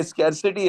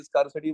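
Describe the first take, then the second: First: स्कैरसिटी said with "skair", the "ai" vowel as in care; correct pronunciation. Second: स्कार्सिटी said with a long open "aar"; common wrong pronunciation. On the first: Teacher correcting the class to स्कैरसिटी. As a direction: say स्कैरसिटी as "skair-si-ti", not "skaar". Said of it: "स्कार्सिटी नहीं है". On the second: Teacher showing students the mistaken स्कार्सिटी. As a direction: say स्कार्सिटी as "skaar-si-ti", the way many people get it wrong. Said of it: "जिसको बहुत सारे लोग स्कार्सिटी, स्कार्सिटी बोलते हैं". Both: Shown as a demonstration.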